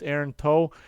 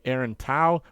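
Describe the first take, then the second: First: The surname's vowel sounds like 'toe'. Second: The surname's vowel sounds like 'cow'. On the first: The speaker calls it right. "but apparently it's Aaron Toe" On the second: The speaker calls it wrong. "the commentators were pronouncing his name incorrectly, like Aaron Tao"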